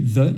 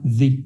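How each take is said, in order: First: The vowel is a short, weak 'uh' sound. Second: The vowel is a long 'ee' sound. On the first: This is the form used before a consonant. "Au lieu de se prononcer the" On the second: This is the form used before a vowel. "il se prononcera the, ce qui permet également de faire une sorte de liaison"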